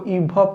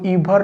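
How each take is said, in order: First: The final r sound is silent. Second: The final r sound is pronounced. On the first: The speaker calls it right. "इसको इभ पढ़ते हैं" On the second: The speaker calls it wrong. "इसको इभर नहीं पढ़ते हैं"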